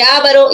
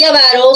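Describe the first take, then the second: First: AVARO as Á-va-ro, first syllable stressed. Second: AVARO as a-VA-ro, middle syllable stressed. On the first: Teacher contrasts two paronyms for students, stress on first syllable. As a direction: punch the opening A of AVARO. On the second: Teacher contrasts two paronyms for students, stress on middle syllable. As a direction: lean on VA in AVARO. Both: Shown as a demonstration.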